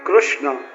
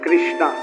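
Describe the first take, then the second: First: The name ends without a long final vowel. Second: The name ends with a long 'aa' vowel. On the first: The speaker calls it right. "જો શબ્દ પર ધ્યાન આપજો" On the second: The speaker calls it wrong. "આમ ઘણા આપણે અંગ્રેજીની બહુ ટેવ પડી ને"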